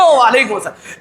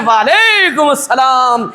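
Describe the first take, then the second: First: Mock slogan reply. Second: Mock loud reply. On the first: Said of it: "ایسے نعرے لگتے ہیں". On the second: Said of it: "لوگ بھی بڑے زور سے کہتے ہیں".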